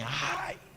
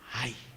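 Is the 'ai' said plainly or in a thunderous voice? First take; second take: thunderous; plainly. First: It is said in a loud, thunderous voice. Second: It is said in an ordinary, modest voice.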